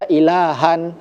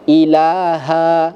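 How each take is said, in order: First: The word ends with an n sound. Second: The word ends on a long vowel. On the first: The speaker calls it wrong. "jangan dibaca ilahan kalau kita mau berhenti" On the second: The speaker calls it right. "Kita berhenti satu yang dibaca"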